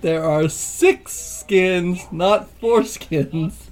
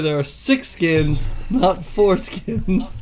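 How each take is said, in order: First: The phrase is said slowly and deliberately. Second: The phrase is said at a normal pace.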